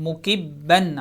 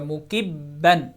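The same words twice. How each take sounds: Both takes have the same delivery.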